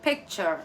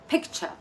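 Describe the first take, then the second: First: American picture. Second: British picture. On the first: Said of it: "U S way is given as". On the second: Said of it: "It's the U K way of saying it". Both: Shown as a demonstration.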